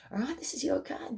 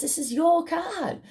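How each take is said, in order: First: This is your card, breathed as a soft whisper. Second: This is your card, slow and high with weight on your; stressed line. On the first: Reader whispering the card to the viewer. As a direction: whisper it like a secret. Tarot reader repeating the point. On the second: Reader telling the viewer the card, slow and emphatic. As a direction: lean on your, slowly. Tarot reader pushing the point. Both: Acted.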